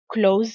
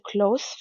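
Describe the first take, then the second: First: The s is a buzzing z sound. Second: The s is a hissing s sound. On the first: It is a verb meaning to shut. "il va se prononcer Z" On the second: It is an adjective meaning near. "Le S va se prononcer S"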